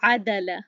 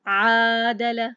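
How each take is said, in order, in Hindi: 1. पहला स्वर छोटा है, एक मात्रा। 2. पहला स्वर खींचकर लंबा किया जाता है। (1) "तो ये तरीका सही है।" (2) "मैं उसको क्यों खींच रही हूँ?"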